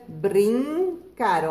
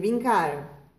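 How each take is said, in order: First: The word is said with an R after B. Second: The word is said with no R after B. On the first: The speaker calls it right. "Põe o R, fica brincar" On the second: The speaker calls it wrong. "se tirar o R, fica bi. A gente não vai dizer"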